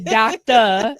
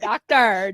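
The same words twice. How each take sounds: First: The word ends in an open 'ah' without R. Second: The word ends with a clear R sound. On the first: The speaker calls it right. "D O C T A, doctor" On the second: The speaker calls it wrong. "not doctor"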